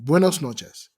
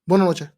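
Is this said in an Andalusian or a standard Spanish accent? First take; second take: standard; Andalusian. First: It is said with fully enunciated standard Spanish sounds. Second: It is said with clipped, southern Andalusian sounds.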